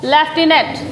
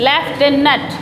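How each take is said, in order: Both takes have the same delivery.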